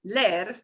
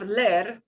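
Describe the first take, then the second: First: The e vowel is said short, once. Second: The same.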